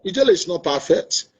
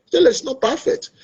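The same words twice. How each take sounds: First: Said in the usual way. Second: Ijele said higher and rising, pressing the point; raised emphasis. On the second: Real, not acted. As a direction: lift the voice on the repeat.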